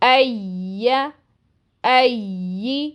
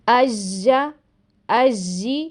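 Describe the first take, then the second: First: The consonant is a smooth continuous y glide. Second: The consonant is a stopped j-like sound. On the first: The speaker calls it right. "इसकी आवाज़ जारी रहती है और ऐसी सुनाई देती है।" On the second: The speaker calls it wrong. "जो कि गलत है।"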